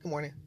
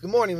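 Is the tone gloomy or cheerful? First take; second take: gloomy; cheerful. First: It is said in a gloomy, flat tone. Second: It is said in a cheerful, smiling tone.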